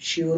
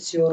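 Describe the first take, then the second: First: The word begins with an sh sound. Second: The word begins with an s sound. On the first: The speaker calls it right. "स को श बोलेंगे इस जगह में, श्योर बोलेंगे" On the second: The speaker calls it wrong. "श्योर नहीं बोलेंगे"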